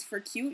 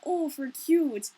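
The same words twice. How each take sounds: First: Said in the usual way. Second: Slow, higher, louder mock-Minnesotan "Oh, for cute". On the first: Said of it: "People say that as a joke". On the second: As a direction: gush "Oh, for cute" in an exaggerated Minnesota accent. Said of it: "we're teasing ourselves".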